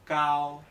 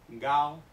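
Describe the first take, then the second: First: The first consonant is a voiceless k sound. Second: The first consonant is a voiced g sound. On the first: The speaker calls it right. "Se pronuncia cao" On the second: The speaker calls it wrong. "no se pronuncia gao"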